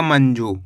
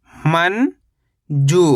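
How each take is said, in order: First: Said in the usual way. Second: मंजू as long rising "man", pause, "joo"; split syllables. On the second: Shown as a demonstration. Teacher breaking down मंजू for learners, split syllables. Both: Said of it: "तो मिलके बन जाएगा".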